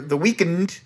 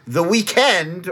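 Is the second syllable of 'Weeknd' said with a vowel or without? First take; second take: without vowel; with vowel. First: The name is said with no vowel before 'nd'. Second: The name is said like the ordinary word weekend.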